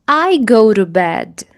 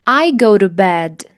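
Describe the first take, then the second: The two takes are said the same way.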